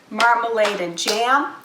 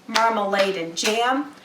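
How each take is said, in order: No difference in how they are said.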